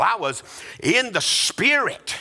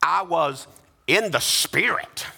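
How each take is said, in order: First: Awed exclamation on "in the Spirit"; with a wow. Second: "in the Spirit" lifted with a rising, drawn-out "in"; mild exclaimed reading of "in the Spirit"; exclamation point. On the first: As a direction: say "I was in the Spirit" with wonder, a big wow. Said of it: "We read it with a wow". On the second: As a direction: read "I was in the Spirit" like an exclamation. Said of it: "we read it with an exclamation point". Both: Shown as a demonstration.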